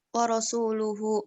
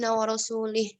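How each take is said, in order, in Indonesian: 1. Akhirannya diucapkan dengan vokal u. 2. Akhirannya diucapkan dengan vokal i. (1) "yang artinya bahwa sesungguhnya Allah dan Rasulnya berlepas diri" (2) "harokatnya kasrah ya di sini"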